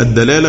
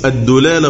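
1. الدال الأولى يتبعها صائت a. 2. الدال الأولى يتبعها صائت u. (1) "بالفتح" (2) "بالضم"

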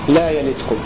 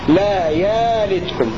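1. الحركة الأولى قصيرة، بدون همزة. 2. الحركة الأولى ممدودة، بدون همزة. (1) "بدون همز" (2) "همزة مبدلة ألفا"

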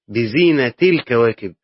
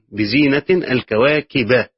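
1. ينتهي zina بـ -i بلا صوت نون. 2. ينتهي zina بـ -in، وينتهي kawakib بـ -a. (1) "قراءة الإضافة ... فلا تنوين فيها" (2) "قراءة نصب الكواكب يعني مع التنوين أيضا"

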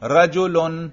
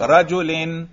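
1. یہ لفظ -un کی آواز پر ختم ہوتا ہے۔ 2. یہ لفظ -in کی آواز پر ختم ہوتا ہے۔ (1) "رفع" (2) "جر"

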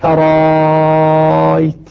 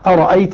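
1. تصبح الهمزة الثانية 'a' طويلة جداً. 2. تُنطق الهمزتان كاملتين وواضحتين. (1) "مع المد المشبع 6 حركات" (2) "بهمزتين مقطعتين"

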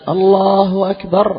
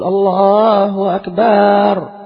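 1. الحركة بعد الباء قصيرة. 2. الحركة بعد الباء ممدودة طويلة.

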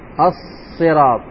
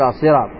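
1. صوت الصاد الأول مُشدَّد ويُمَدّ طويلًا. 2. صوت الصاد الأول مُفرَد وقصير. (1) "الصاد مشدد" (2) "ما نقول الصراط"

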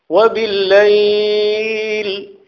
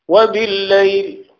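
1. يُنطق صائت المقطع الأخير ممدودًا. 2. يُنطق صائت المقطع الأخير قصيرًا. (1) "بالإشباع" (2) "بدون مد قصر"

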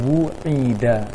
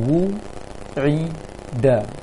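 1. Suku katanya menyambung, tanpa jeda. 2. Suku katanya diucapkan terpisah, ada jeda. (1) "ketika dirangkai" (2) "dipisah-pisah hurufnya terlebih dulu"

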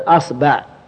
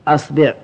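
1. تأتي بعد الباء فتحة. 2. تأتي بعد الباء كسرة. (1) "الفتح" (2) "والكسر"

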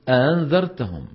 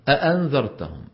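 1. تُسهَّل الهمزة الثانية. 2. تُنطق الهمزتان كلتاهما كاملةً. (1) "يسهل الثانية" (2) "الأصل أن تقول أأنذرتهم"

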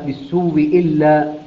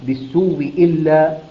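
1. تصير الهمزة الأولى واوًا مشددة مكسورة. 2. تصير الهمزة الأولى واوًا مشددة مكسورة.

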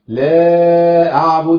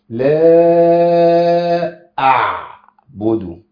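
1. صوت 'ain' يُحذف تماماً. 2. صوت 'ain' يُخرج بعنف. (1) "أو يضيعها خالص" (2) "بتتعامل مع العين الساكنة بعنف شوية"

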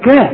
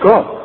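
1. صوت الكاف خفيف ورقيق. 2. صوت الكاف ثقيل ومفخم. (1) "تذكر ان كاف القرآن كا" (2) "مش كا"

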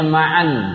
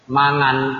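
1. Konsonan di tengahnya adalah bunyi 'ain dari tenggorokan. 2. Konsonan di tengahnya adalah bunyi ng. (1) "Namanya Ma'an. Ya, ain" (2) "Jangan dibaca dengan bahasa Purbalingga"

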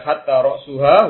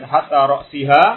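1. Kata kedua diakhiri dengan vokal u. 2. Kata kedua diakhiri dengan vokal i. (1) "Kalau dibaca hatta ra'suha, huruf ibtidaiyah, huruf permulaan" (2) "Kalau dibaca hatta ra'siha, huruf jar"

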